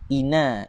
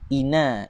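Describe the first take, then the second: First: The n sound is short and single. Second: The n sound is short and single.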